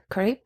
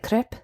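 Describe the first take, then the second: First: "crepe" with a long a, like "krape"; Anglicised pronunciation. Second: "Crepe" with a short e, like "krep"; French-style pronunciation. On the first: Quoting a show's debate, "crepe" said as long "krape". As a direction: say "crepe" to rhyme with "grape". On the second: Quoting a show's debate, "Crepe" said as short "krep". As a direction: say "Crepe" to rhyme with "step". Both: Retold or imitated. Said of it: "the different ways to say it".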